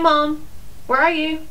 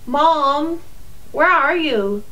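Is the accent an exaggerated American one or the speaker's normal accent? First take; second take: normal; exaggerated American. First: It is said in the speaker's normal accent. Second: It is said in an exaggerated American accent. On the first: The speaker calls it right. "or I could just go" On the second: The speaker calls it wrong. "I could go stereotypical"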